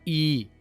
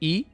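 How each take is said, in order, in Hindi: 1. स्वर लंबा खींचा गया है। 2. स्वर छोटा और तेज़ है।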